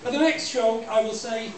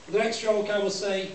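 Both takes have the same delivery.

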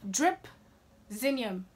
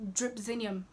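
First: "Dripzinium" very slowly, split into two parts; Dripzinium broken apart. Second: Said in the usual way. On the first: Shown as a demonstration. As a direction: pause between Drip and zinium in "Dripzinium". Repeats the word broken into parts.

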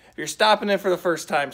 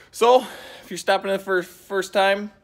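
First: Said in the usual way. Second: Words tripping over each other; fumbled line. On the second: Real, not acted. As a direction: stumble through the line. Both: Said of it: "oh, I messed that all up".

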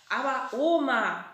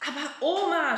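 First: Protesting. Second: Louder, laughing protest; shouting with a grin. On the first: Acted. Boy protests after ball hit. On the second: A narrator's reading. Frieder shouts at grandma over the tulip bed, grinning. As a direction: cry it out, amused. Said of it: "schreit der Frieder".

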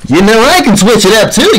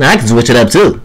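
First: Lilting, higher take on the line; switched-up voice. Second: Dropped, lower-pitched take on the line; switched-up voice. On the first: Showing the other caller they can switch it up, higher voice. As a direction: swing the pitch up playfully. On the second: Showing the other caller they can switch it up, lower voice. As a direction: bring the pitch well down. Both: Shown as a demonstration. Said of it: "I can switch it up a lot".

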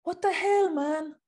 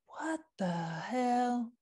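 First: Italian style. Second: Slow disbelief. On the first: Mocking Italian brands that refuse vegan leather, in a hammed-up Italian accent. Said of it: "Italian style". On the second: To the fashion brands, slow disbelieving what the hell. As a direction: let the disbelief stretch out slowly. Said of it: "I don't know what accent that was". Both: Pretend.

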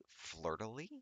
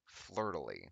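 First: "flirtily" with a rising, doubtful end; puzzled question. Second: "Flirtily" with a falling end; resigned statement. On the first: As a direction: query the word "flirtily" as it rises. Querying an odd word. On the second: Same word repeated as statement. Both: Real, not acted.

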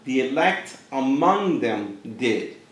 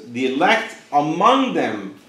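First: Slow, softer repeat with weight on "among"; slow, hushed second reading; quieter restatement. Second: Slow, weighty stress on among; slow, pointed scripture reading; emphatic reading. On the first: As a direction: say it again, pulling back in volume. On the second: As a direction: lean into "among" slowly, making the elect stand out. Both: Shown as a demonstration. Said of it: "But listen to this".

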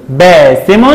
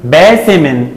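First: باسم ending in "-mun"; damma tanween. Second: باسم ending in "-min"; kasra tanween. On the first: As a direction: say باسم as "baasimun". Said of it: "وعند التنوين بالضم هنقول". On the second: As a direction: say باسم as "baasimin". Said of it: "وعند التنوين بالكسر هنقول". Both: Shown as a demonstration.

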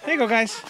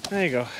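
First: Cheery call. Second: Said in the usual way. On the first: Real, not acted. Feeding the roosters.

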